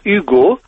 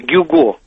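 First: The name starts directly with a vowel. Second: The name starts with a g sound. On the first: This is how the name sounds in French. The speaker calls it right. "Вот именно так, «Гюго», оно произносится по-французски" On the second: This is the Russian rendering of the name. The speaker calls it wrong. "а не «Гюго»"

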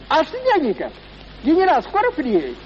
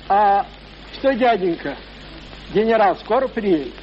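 First: The line is delivered in a stagey, clichéd tone. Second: The line is read out plainly, without acting. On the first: The boy fell into the stock manner of a bad actor. "заговорил тоном, штамповано, как в любом театре плохой актерик сыграет" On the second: These are just the words of the part. "Дали ему слова"

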